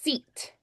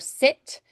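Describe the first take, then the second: First: The vowel sounds closer to an ee sound. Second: The vowel is a pure, short i sound. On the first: "Irish, seat" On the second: "Scottish would be more sit"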